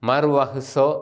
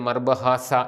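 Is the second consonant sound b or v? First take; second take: v; b. First: It has a v sound and ends in o. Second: It has a b sound and ends in a. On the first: The speaker calls it right. "മർവഹ്സോ എന്നാണ് ശരിയായിട്ട് അതിൻ്റെ ഉച്ചാരണം" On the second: The speaker calls it wrong. "തെറ്റിച്ച് മർബഹാസ എന്നൊക്കെ പറയുന്നത്"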